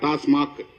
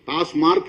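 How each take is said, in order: First: The second syllable has no R sound, 'mac'. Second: The second syllable has an R sound, 'mark'. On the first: The speaker calls it right. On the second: The speaker calls it wrong.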